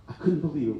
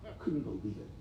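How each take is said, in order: First: Said in the usual way. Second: Near tears, voice dropping right down; barely getting the words out, overcome; choked up. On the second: Real, not acted. Doctor choking up as he tells the crowd about the hospital. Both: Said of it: "I'm about to cry right now".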